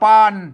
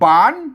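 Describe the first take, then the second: First: The syllable is said with a low tone. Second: The syllable is said with a rising tone. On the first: "เสียงเอก" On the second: "เสียงจัตวา"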